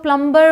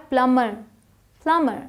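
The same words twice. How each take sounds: First: प्लम्बर with the b sounded; common mispronunciation. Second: प्लम्बर as "plummer", no b; silent b. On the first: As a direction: say प्लम्बर as "plum-ber". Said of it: "ninety nine percent लोग प्लम्बर बोलते हैं". (प्लम्बर में ब बोलकर) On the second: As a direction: go from m straight to the ending in प्लम्बर. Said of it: "but ये क्या है". (प्लम्बर में ब चुप) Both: Shown as a demonstration.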